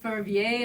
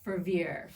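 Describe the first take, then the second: First: The name is said with a French pronunciation. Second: The name is said with an English pronunciation. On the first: The speaker calls it wrong. "I'm pronouncing it in French" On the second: The speaker calls it right. "generally we go by Fervier"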